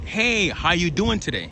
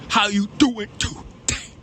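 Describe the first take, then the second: First: It is said plainly, without spitting sounds. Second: It is said with wet, spitting sounds.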